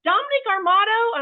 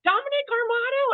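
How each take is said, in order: First: High, louder shout of a name from afar; yelling across the store. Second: High, loud call of a name across a crowd; calling out across the airport. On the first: Somebody in Wall Drug calling out to husband, loud call. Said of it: "somebody's yelling across the Wall Drug". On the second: Stranger in airport calling out to husband, loud call. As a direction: hail him from far off, pitched up. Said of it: "this guy yells out". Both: Retold or imitated.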